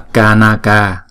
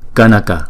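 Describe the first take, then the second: First: The a vowels are long, two beats each. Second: The a vowels are short, one beat each. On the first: The speaker calls it wrong. "chứ không đọc là kanaka" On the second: The speaker calls it right. "chữ này chúng ta đọc là kanaka"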